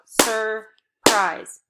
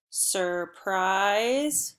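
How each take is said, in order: First: "Surprise" as two loud, separate beats, sur, prise; clapped-out syllables. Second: "Surprise" stretched slowly into one joined word; blended together. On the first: Teacher clapping out syllables with pupils, "Surprise" loud and split. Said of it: "Clap it out". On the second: Teacher modelling blending for pupils, "Surprise" drawn out and joined. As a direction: blend "Surprise" smoothly, drawing out both syllables. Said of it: "blend it together". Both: Shown as a demonstration.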